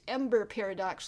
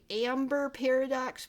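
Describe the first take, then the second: First: The first vowel sounds like 'e' in ember. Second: The first vowel sounds like 'a' in amber. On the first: The speaker calls it right. "it's Ember Paradox, like embers" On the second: The speaker calls it wrong. "a lot of people say Amber Paradox, but no"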